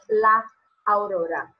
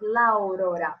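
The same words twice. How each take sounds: First: A short pause separates the two a sounds. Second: The two a sounds merge with no pause. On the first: The speaker calls it wrong. "no decimos la aurora, no hay esta pausa" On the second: The speaker calls it right. "vamos a leer con una A solamente"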